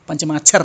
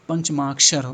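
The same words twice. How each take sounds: First: The middle cluster is said as chh. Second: The middle cluster is said as ksh. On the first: The speaker calls it wrong. "माच्छर नहीं, पंचमाक्षर नहीं होता है" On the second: The speaker calls it right. "पंचमाक्षर होता है। माक्षर, कक्षा, उसी तरह से"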